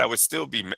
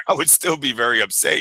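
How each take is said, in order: First: Said in the usual way. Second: Laughing through the line. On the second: Retold or imitated. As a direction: chuckle while you say it. Quote restarted through a laugh.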